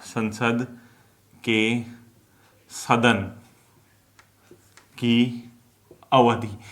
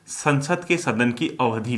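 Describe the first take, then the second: First: "संसद ... के ... सदन ... की ... अवधि" with long pauses between words; word-by-word dictation. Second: Said in the usual way. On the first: Shown as a demonstration. Teacher dictating notes to students, slow word-by-word dictation. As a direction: dictate "संसद के सदन की अवधि" one word at a time, pausing after each.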